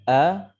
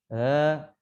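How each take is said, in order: First: The vowel starts with a strong, abrupt onset. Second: The vowel starts softly and floats without force. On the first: "A ini adalah hamzah karena dia kuat" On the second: "A ini adalah alif karena tidak kuat"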